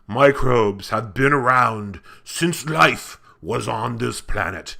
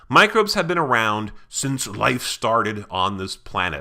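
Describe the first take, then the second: First: It is said in a grand, dramatic voice. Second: It is said in a plain, ordinary voice.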